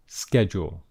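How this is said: It is said with an American accent.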